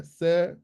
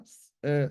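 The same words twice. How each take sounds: First: "sé" said as one smooth syllable; blended syllable. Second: S- then é, sounded apart with a break between; sounds said separately. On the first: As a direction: join the sounds into "sé" in one go. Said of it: "e a junção". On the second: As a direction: split "s-, é" into its two sounds. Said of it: "fazendo a pronúncia de cada som individual". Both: Shown as a demonstration.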